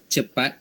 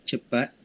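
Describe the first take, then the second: No difference in how they are said.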